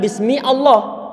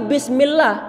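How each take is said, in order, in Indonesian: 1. Allah dimulai dengan jeda terpisah setelah bismi. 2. Bismi langsung menyambung ke Allah tanpa jeda. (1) "bukan bismi Allah" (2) "tapi bismillah"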